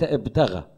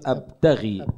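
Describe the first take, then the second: First: The word ends in a long 'a' vowel. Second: The word ends in a long 'ee' vowel. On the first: The speaker calls it wrong. "أنت قريت ابتغى" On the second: The speaker calls it right. "فلما يكون في كسرة تحت الحرف ومن بعده ياء، يعني هذه ياء مد"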